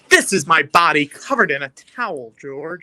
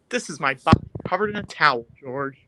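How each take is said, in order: First: It is said with pride. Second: It is said with the attitude toned down.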